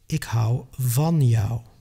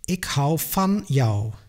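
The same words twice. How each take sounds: First: The word van starts with a voiced V sound. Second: The word van starts with a voiceless F sound. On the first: The speaker calls it right. "just say" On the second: The speaker calls it wrong. "Don't say"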